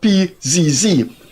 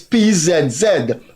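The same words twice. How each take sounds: First: The letter Z is pronounced zee. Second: The letter Z is pronounced zed. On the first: This is the American way. The speaker calls it wrong. "not P Z Z" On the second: This is the non-American way. The speaker calls it right. "Your car number is P Z Z"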